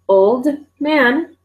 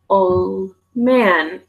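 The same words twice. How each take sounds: First: The D at the end of 'old' is pronounced. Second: The D at the end of 'old' is dropped.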